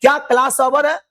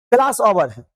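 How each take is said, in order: First: "क्या class over है" asked high, lifting at the end; rising question. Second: "class over है" told at usual pitch, dropping at the end; falling statement. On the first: Teacher shows students a question, rising intonation. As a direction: raise the voice through "over है" as a question. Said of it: "आपका voice बढ़ रहा". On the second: Teacher shows students a statement, falling intonation. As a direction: let the voice fall on "over है". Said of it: "हम आपको बता रहे हैं". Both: Shown as a demonstration.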